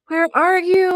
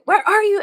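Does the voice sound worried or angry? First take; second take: worried; angry. First: It sounds worried and concerned. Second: It sounds angry and yelling.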